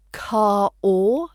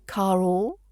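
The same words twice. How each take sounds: First: Car or joined with a linking r; linked r. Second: Car or as one flowing unit with the r joining them; linked smoothly. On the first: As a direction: run car into or smoothly. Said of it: "play with linking". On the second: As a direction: glide car or together. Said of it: "link it together". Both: Shown as a demonstration.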